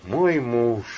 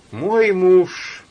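First: Sighing. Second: МОЙ loud and high; мой punched, муж falls away; stressed "my husband". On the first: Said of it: "вздохнувши". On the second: Elena quoting husband, sighing. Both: Acted.

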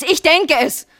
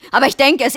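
First: "denke" pushed higher in pitch; heightened insistence. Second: "denke" stressed firmly, pitch falling after; insistent. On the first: Wife repeating her fear, "denke" in heightened insistence. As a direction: repeat "denke" with raised, upset voice. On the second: Wife admitting her fear, "denke" firmly insistent. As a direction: press on "denke" with conviction. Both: Acted.

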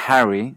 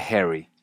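First: "Harry" with an open a, as in "cat"; unmerged vowel. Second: "Harry" said like herry; Canadian merger. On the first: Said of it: "el nombre Harry". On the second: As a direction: turn the a of "Harry" into short e. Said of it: "se dice Harry". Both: Shown as a demonstration.

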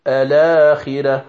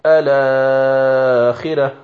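First: الآخرة with its first alif held short, two counts; short vowel. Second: الآخرة with the first alif stretched to a medium four counts, slow; medium elongation. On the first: Teacher reciting الآخرة with the short length for students. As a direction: say الآخرة with a quick short madd. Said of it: "الآخرة بالقصر". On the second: Teacher reciting الآخرة with the medium madd for students. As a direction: draw out the alif of الآخرة to a middle length. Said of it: "أو بالتوسط". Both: Shown as a demonstration.

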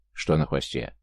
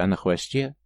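First: Low «Что на хвосте», falling at the end; falling question. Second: НА ХВОСТЕ left hanging on a rise; rising, unfinished. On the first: Listener breaks into the account, low falling «Что на хвосте». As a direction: ask «Что на хвосте» lower, with a closing fall. Listener asks back about the tail. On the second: Younger brother describing the beast, «а на хвосте» rising, unfinished. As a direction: lift the end of «а на хвосте», as if more follows. Excited account, cut off by question. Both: A narrator's reading.

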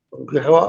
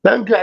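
First: تنكحها with a "u" after the ta, tunkihuha; rounded "tu" at the start of تنكحها; damma on the ta. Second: تنكح with an "a" after the ta, opening "tan"; fatha on the ta. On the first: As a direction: say تنكحها opening with "tun". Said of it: "هو قرأ بالضم". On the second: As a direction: say تنكح starting with an open "ta". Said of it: "بالفتح". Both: Shown as a demonstration.

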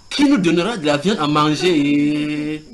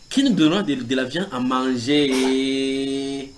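First: Complaining question. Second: Mock whine. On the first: Acted. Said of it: "ils posent la question". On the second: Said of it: "recommencèrent à pleurer et dire".

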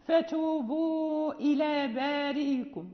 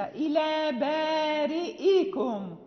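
First: Slow recitation, "بارئكم" gliding as "baarii-kum"; softened hamza. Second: Slow "بارئكم" as "baari'-i-kum" with a clear catch; fully sounded hamza. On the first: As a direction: ease the hamza of "بارئكم" into a long "ii", without a catch. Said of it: "يسهلها". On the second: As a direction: articulate the glottal stop in "إلى بارئكم". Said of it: "لا بد أن ننطق بالهمزة". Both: Shown as a demonstration.

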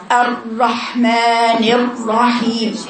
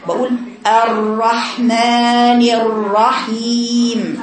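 First: الرحمن الرحيم said slowly with the ر fully closed off; wrong closed r. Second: الرحمن الرحيم drawn out very slowly with a light trilled ر; slow model recitation. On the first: Teacher shows students the mistaken way to say الرحمن الرحيم. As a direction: recite الرحمن الرحيم slowly, sealing the whole passage on the ر. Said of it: "خطأ". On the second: Teacher models for students the correct way to say الرحمن الرحيم. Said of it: "عشان كده بقول". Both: Shown as a demonstration.

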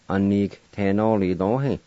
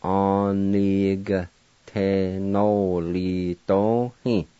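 First: Said in the usual way. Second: "Onigtenolidohi" drawn out syllable by syllable, a-ni-ga-te-no-li-do-hi; very slow pronunciation. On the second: Shown as a demonstration. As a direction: spell it out in sound, very slowly. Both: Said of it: "pronounced like this".

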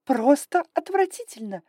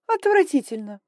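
First: Higher, louder, stressing просто; hissed disgust. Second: Higher, louder disgusted hiss. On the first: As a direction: hiss it, leaning on просто. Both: Acted. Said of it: "прошипела драконица".

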